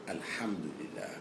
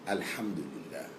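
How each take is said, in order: The two takes are said the same way.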